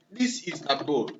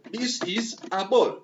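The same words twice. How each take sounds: First: Said in the usual way. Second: Each word spelled out slowly, pitched up a touch; teacher slowing down to model the line; slow, deliberate demo. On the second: Shown as a demonstration. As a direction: say it slowly so the class can follow.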